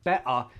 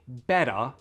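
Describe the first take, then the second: First: The middle T is a glottal stop. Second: The middle T is a quick flapped D. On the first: It sounds British. "Glottal T" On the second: It sounds American. "that's the flap D"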